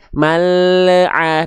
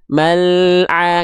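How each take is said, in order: First: The L has a bouncing echo before the next sound. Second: The L passes smoothly into the next sound. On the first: The speaker calls it wrong. "kecuali mal'a" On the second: The speaker calls it right. "Nggak akan ada pantulan"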